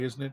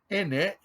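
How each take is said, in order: First: The s sound in isn't is kept. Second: The s sound is dropped, giving in it. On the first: This is the American way of saying it. "We say" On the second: This is the English way of saying it. "But they take out the S. And so it becomes just"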